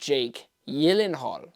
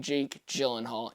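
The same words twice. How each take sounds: First: The surname gets its careful, standard pronunciation. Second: The surname gets a popular, casual pronunciation. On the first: This is the name's proper pronunciation. "I believe that's pronounced correctly" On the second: This is how people commonly say the name. "but we all like to say"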